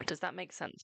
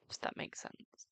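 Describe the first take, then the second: First: Said in the usual way. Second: Soft breathy whisper into the mic; ASMR whisper. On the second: Shown as a demonstration. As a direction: whisper it close to the microphone, ASMR style. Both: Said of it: "I could do A S M R with this microphone".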